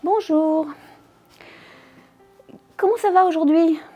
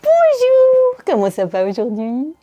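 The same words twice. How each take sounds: First: It sounds disgusted. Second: It sounds patronizing, as if to a child.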